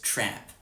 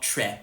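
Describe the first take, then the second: First: The vowel is lower and more open than 'eh'. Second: The vowel is raised, close to 'eh'. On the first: This is the modern pronunciation. "I say trap, which is still kind of eh... but not eh" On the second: This is the old-fashioned broad Australian pronunciation. "It's not trep"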